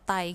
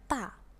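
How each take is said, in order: First: The vowel glides toward an i sound. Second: The vowel stays a plain open a. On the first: The speaker calls it wrong. "hampir seperti dibaca tai" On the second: The speaker calls it right. "Harusnya ta"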